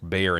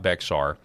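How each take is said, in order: First: It sounds like bear, with no x sound. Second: It is said with a clear x sound. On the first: The speaker calls it right. "That's pronounced Bear in Texas" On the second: The speaker calls it wrong. "not Bexar"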